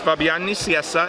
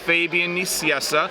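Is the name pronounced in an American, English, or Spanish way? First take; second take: Spanish; English. First: The name is pronounced the Spanish way. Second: The name is pronounced the English way. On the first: "In Spanish" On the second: "In English"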